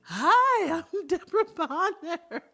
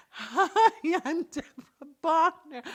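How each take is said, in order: First: High, loud, silly greeting with a laugh; goofy loud introduction. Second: High, loud, laughing silly greeting; goofy loud introduction. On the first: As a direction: ham it up to crack your partner up. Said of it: "But I can't smile". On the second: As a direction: ham it up again, laughing. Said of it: "I made her laugh". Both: Pretend.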